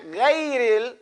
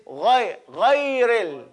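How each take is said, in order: First: Hard g and ay in "ghayril"; wrong pronunciation. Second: "ghayril" with throaty gh and open vowel; correct pronunciation. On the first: Teacher shows students the mistake, mispronounced "ghayril". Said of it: "It's not ghayril". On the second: Teacher corrects the word, throaty "ghayril". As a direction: start "ghayril" from the back of the throat. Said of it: "It's not ghayril, it's". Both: Shown as a demonstration.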